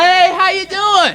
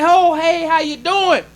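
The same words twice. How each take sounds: First: Slow, drawn-out, sing-song mock cheer; mock cheerful greeting. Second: Said in the usual way. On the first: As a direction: mimic a chummy hello, laying it on thick.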